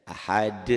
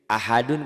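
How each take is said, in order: First: Ahad halting on a bounced d; qalqalah stop. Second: Ahadun read through, final -dun fully sounded; full ending. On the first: Teacher shows the reading when one stops, bouncing qalqalah. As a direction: stop on the d of "Ahad" and let it echo briefly. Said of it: "Kalau kita berhenti membacanya". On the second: Teacher quizzes on the unstopped word, full ending. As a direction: give "Ahadun" its whole last syllable. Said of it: "qalqalah bukan?". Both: Shown as a demonstration.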